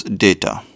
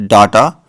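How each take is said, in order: First: Data said DAY-tuh; current pronunciation. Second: Data said DAH-tuh; old pronunciation. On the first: Giving his current way of saying data, current pron. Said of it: "and now I pronounce this as". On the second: Recalling his old way of saying data, old pron. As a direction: say data with a broad ah. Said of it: "I originally started pronouncing it as". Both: Shown as a demonstration.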